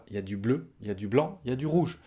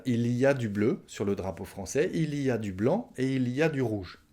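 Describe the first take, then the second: First: "il y a" shortened to "y a"; spoken contraction. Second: "il y a" said in full, with the l; full careful form. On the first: Teacher showing how it is said orally, contracted. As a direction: drop the "il", quick "y a du bleu". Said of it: "À l'oral, on va dire". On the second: Teacher showing what French speakers won't say, fully articulated. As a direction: pronounce every sound of "il y a". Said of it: "Je vais pas dire". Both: Shown as a demonstration.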